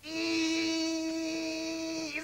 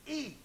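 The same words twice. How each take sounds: First: A higher, long held I with an odd tone; stretched I. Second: A soft I, said quietly; a quiet first try at the I; pupil repeating I. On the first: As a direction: draw out the I on a sustained note. (un I aigu et longuement tenu) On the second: (un I dit tout doucement) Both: Shown as a demonstration.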